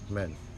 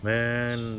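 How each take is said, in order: First: The vowel is said short and clipped. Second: The vowel is said long and drawn out. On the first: The speaker calls it right. "बल्कि मैन" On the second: The speaker calls it wrong. "मैन नहीं बोलेंगे"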